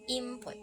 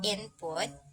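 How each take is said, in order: First: The n sound shifts toward an m. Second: The n sound stays a clear n. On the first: "some people sometimes uh, pronounce input" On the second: "word input"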